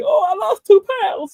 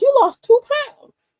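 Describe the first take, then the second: First: High, loud delighted repeat; light up as if you won something; all happy. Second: High, slow, loud nurse voice announcing the news. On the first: Patient hearing he lost weight, delighted and loud. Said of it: "And I'm all happy". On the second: Nurse weighing him, announcing in a high slow voice. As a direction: sing out the number like good news. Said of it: "she goes". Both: Retold or imitated.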